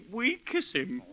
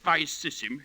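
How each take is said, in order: First: It begins with W and has a hard K. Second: The middle consonants are soft S sounds. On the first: This is the new school pronunciation of Latin. The speaker calls it wrong. "you'd make 'em say we kiss him" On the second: This is the old pronunciation of Latin. The speaker calls it right. "instead of vi sis him"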